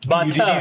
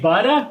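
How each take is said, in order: First: The middle consonant sounds like a crisp t. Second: The middle consonant sounds like a soft d. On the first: "B U T T A" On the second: "like B U D D A"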